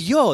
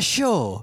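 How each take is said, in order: First: The word begins with a 'y' sound. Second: The word begins with an 'sh' sound. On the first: The speaker calls it right. "It's yo" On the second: The speaker calls it wrong. "not show"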